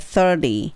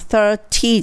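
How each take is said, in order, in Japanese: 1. 真ん中の子音は、やわらかいdのようなフラップです。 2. 真ん中の子音は、はっきりしたtの音です。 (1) "D になります。" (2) "30 じゃなくて"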